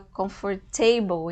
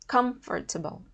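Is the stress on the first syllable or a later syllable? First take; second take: later; first. First: The stress falls on a later syllable. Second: The stress falls on the first syllable. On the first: The speaker calls it wrong. "a gente fala comfortable, ainda tem a influência do table" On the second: The speaker calls it right. "mas o correto é com, com, comfortable"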